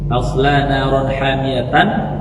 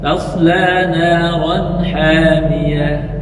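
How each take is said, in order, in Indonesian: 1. Kata terakhir berakhir dengan bunyi -tan. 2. Kata terakhir berakhir dengan bunyi -h.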